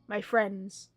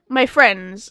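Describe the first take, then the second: First: It is read in a flat, monotone, deadpan voice. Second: It is read in a natural, ordinary voice.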